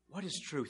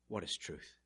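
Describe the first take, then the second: First: It sounds like a sincere, longing question. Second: It sounds like a scornful, dismissive question.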